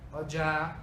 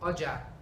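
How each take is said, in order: First: It carries the tone pattern of 'head cloth'. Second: It carries the tone pattern of 'market'. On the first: Head cloth. "pano de cabeça" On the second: Market.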